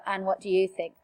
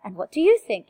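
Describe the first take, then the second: First: Low, level delivery with "you" kept down; no questioning rise. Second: Questioning lift, pitch jumping up on "you"; voice going up. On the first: Teacher showing students a line without question mark, voice kept down. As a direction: say it as a statement, "think" not lifted. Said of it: "if there is no question mark". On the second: Teacher showing students a wrongly raised question, voice going up. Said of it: "make your voice go up". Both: Shown as a demonstration.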